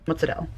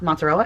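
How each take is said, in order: First: It is said with an Italian-American accent. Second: It is said with a plain American accent.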